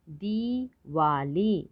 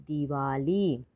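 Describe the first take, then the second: First: दिवाली slowly split as दि, वा, ली; three drawn-out beats in दिवाली; syllable by syllable. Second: Said in the usual way. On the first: Shown as a demonstration. Teacher sounding out दिवाली for learners, syllable by syllable. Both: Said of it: "तो शब्द पढ़ते हैं".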